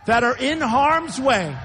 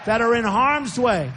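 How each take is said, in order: First: Slowed down, each word leaned on; slow, weighty "that are in harm's way"; slow emphatic. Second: Said in the usual way. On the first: Real, not acted. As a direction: drag out harm's way to make it weigh.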